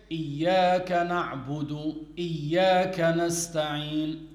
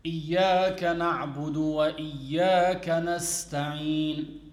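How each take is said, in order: First: "إياك نعبد, إياك نستعين" with the waw dropped, the second "إياك" starting straight after a pause; a deliberately faulty recitation that skips the waw; wrong recitation without waw. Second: "إياك نعبد وإياك نستعين" recited carefully, the waw before the second "إياك" clearly voiced; "إياك نعبد وإياك نستعين" with every stressed letter given its full weight; correct recitation with waw. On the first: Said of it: "so he missed out the waw". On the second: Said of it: "you say". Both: Shown as a demonstration.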